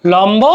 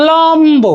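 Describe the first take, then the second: First: Said in the usual way. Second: লম্ব drawn out high, "lommm-bo"; stretched clear b. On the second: Shown as a demonstration. Teacher demonstrating the kept b, high stretched লম্ব. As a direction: lean on the m before the b in লম্ব, raised pitch. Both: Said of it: "এভাবে উচ্চারণ".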